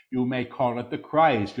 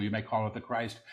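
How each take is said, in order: First: Deliberate full-voice repeat; measured proclamation. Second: Quick, soft undertone; hushed preview. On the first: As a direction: proclaim it clearly, word by word. Same words repeated in full voice. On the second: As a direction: say it softly and rapidly before proclaiming it. Quick soft take before repeating aloud. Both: Real, not acted.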